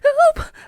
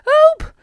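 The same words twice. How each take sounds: First: It is said quietly. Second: It is said loudly.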